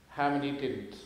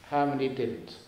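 Both takes have the same delivery.

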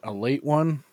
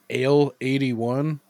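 First: It is run together, sounding like a late one. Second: It is said as separate words, ale eighty-one.

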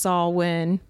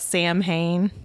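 First: The word is said its accepted way, not as spelled. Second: The word is said letter by letter as spelled. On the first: "I know it's pronounced Samhain" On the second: "but it's spelled like Samhain"

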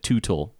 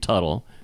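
First: The first vowel sounds like the one in 'boot'. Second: The first vowel sounds like the one in 'cut'. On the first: This is how a computer voice misread the name. The speaker calls it wrong. "this AI voice kept calling it Tootle" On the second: This is how the family says its own name. The speaker calls it right. "them pronouncing their name Tuttle"

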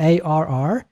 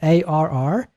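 First: A strong, healthy pirate growl. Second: A strong, healthy pirate growl.

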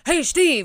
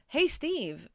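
First: It is barked out in an aggressive voice. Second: It is said in a gentle, nice voice.

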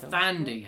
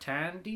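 First: The name begins with a th sound. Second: The name begins with a plain t sound. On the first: The speaker calls it right. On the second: The speaker calls it wrong.

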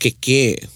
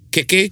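First: The final vowel is long. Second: The final vowel is short. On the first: It means to creak. "with a tohuto on the last ke would be keke" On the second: It means cake. "keke, cake"

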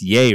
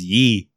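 First: The vowel sounds like the one in 'day'. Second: The vowel sounds like the one in 'see'. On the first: The speaker calls it right. "It's yay, right?" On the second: The speaker calls it wrong. "He says ye"

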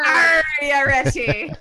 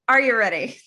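First: It is said in a put-on pirate voice. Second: It is said in a normal voice.

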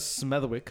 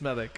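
First: The W sound is pronounced in the name. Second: The W sound is silent in the name. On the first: This is how the spelling reads. The speaker calls it wrong. "it has a W in it, man. So that's why it says Smethwick" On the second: This is how the name is actually said. The speaker calls it right. "I'm pretty sure it's Smethwick"

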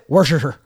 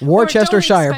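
First: Several syllables are dropped, giving a shorter word. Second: Every written syllable of the word is sounded out. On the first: "but pronounce it Worcestershire" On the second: "it's spelled Worcestershire"

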